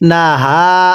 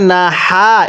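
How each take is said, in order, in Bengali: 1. "h" গলার গভীর থেকে উচ্চারিত হয়। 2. "h" হালকা, গলা থেকে নয়। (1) "গলার মধ্যে আওয়াজ করে পড়তে হবে" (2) "এরকমভাবে পড়লে তো পড়াটা শুদ্ধ হবে না"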